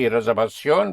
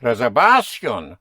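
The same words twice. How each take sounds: First: Reservación as re-ser-va-SYON, ending hit; reservación with the accent on the O; stress on last syllable. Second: Reservación misstressed on VA, by the rule; stress on penultimate syllable. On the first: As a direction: push the final ón of reservación. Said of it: "it should not be reservación". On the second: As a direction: push down hard on the va of reservación. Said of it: "according to the nose rule". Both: Shown as a demonstration.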